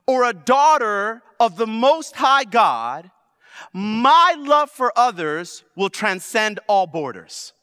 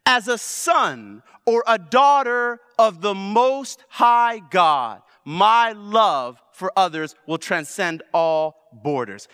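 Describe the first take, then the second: First: Slow, loud preaching proclamation; deliberate pulpit declaration; slow emphatic declaration. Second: Slow, loud preaching proclamation again; measured pulpit refrain; slow emphatic repeat. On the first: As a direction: proclaim each word with weight. Preacher declares identity line. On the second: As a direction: drive every word home. Repeats declaration. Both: Acted.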